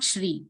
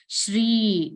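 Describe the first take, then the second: First: The final vowel is cut short. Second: The final vowel is held long. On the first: The speaker calls it wrong. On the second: The speaker calls it right. "that denotes the long pronunciation of that letter"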